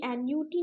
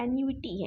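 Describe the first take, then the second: First: "एन यू टी" as an-yu-tee, three syllables; annuity missing i. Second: "एन यू टी" as an-yu-i-tee, four syllables; annuity with i. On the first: Teacher showing the incomplete word, "एन यू टी" without the i. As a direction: go straight from yu to tee in "एन यू टी". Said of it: "ये एन यू टी नहीं है". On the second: Teacher correcting for students, "एन यू टी" with the added i. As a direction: slip a short i between yu and tee in "एन यू टी". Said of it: "नहीं है, एन यू टी है". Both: Shown as a demonstration.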